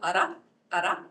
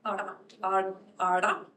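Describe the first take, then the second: First: Ara, ara said with a quick tongue tap; tap demo. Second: Ara, ara, ara with the tongue curled back; retroflex r demo. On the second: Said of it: "It's a retroflex". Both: Shown as a demonstration.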